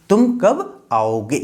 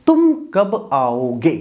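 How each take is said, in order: Both takes have the same delivery.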